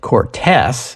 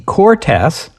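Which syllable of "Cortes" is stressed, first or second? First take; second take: second; first. First: The stress is on the second syllable. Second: The stress is on the first syllable. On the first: The speaker calls it wrong. "I thought there was an accent mark on the second syllable" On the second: The speaker calls it right. "Just for the record, it's the Cortes"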